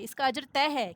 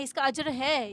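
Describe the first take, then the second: First: طے given the main weight, falling after it; stress on طے. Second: Said in the usual way. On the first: Shown as a demonstration. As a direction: lean on طے to make it certain.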